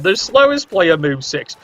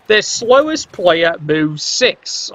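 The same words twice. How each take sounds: First: "slowest" hit again at normal pace, falling after it; repeated stress on slowest. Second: "slowest" drawn out and leaned on, the whole line slow; slow stress on slowest. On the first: Caster repeating his point to chat, stressing "slowest". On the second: Caster stressing the Lizards' speed, slow and weighted on "slowest". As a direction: spell out "slowest" slowly so the point lands. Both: Shown as a demonstration. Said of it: "I stress it again".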